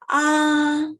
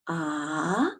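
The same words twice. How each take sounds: First: The pitch stays high and level. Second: The pitch rises from middle to high. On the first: "We keep on the highest page stateable" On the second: "The second tone is from the medium pitch up to the highest pitch"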